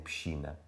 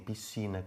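First: It has a regional continental Portuguese pronunciation. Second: It has a Brazilian pronunciation, like the speaker's.

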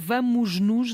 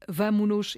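First: An s sound is heard before nos. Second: No s sound is heard before nos. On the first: The speaker calls it wrong. "até custa a dizer vamos-nos" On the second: The speaker calls it right. "a forma correta é"

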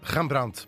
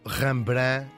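First: The name is said with a Dutch pronunciation. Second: The name is said with a Portuguese pronunciation.

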